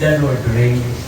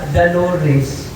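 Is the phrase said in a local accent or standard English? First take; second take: standard English; local accent. First: The phrase is said clearly in standard English. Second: The phrase is blurred into one local-accented word. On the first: The speaker calls it right. "ang ibig nilang sabihin" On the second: The speaker calls it wrong. "sa kanilang wika, daloris"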